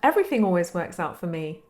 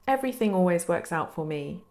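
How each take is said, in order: First: It is said in an obvious, certain tone. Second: It is said in a plain, uncertain tone. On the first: The statement is plainly known to be true. The speaker calls it right. "you say your statement in a very obvious tone" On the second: The statement is only hoped to be true. The speaker calls it wrong. "instead of saying like"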